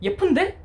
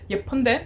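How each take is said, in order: First: It is said in a contradicting, objecting tone. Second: It is said in a mild, plain answering tone. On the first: It disagrees with a claim that she is ugly. "But you have to change your tone. It's going to be like" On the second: It simply answers that she is beautiful. "when you're answering to your question"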